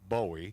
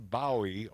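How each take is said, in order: First: The name is said like the singer's surname. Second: The name is not said like the singer's surname.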